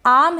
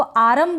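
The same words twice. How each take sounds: First: आम as one syllable, no R; आम with a long vowel straight into M; silent R. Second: आरम as aa-rum, two syllables; over-pronounce the R in आरम; आरम with a vowel after a full R; wrong full R. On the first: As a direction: drop the R in आम. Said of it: "इसको आरम बोलेंगे". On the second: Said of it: "तो ये गलत हो जाएगा". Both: Shown as a demonstration.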